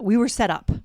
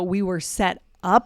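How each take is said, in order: First: Set and up run together without a pause. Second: There is a pause between set and up. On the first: The speaker calls it right. "We're not pausing like that" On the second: The speaker calls it wrong. "It's not like we're pausing between"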